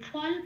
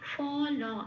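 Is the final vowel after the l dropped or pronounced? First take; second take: dropped; pronounced. First: The final vowel after the l is dropped. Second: The final vowel after the l is pronounced. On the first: The speaker calls it wrong. "ফল বলতে পারবো না" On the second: The speaker calls it right. "এটা পুরো বলতে হবে, পূর্ণরূপে উচ্চারণ করতে হবে"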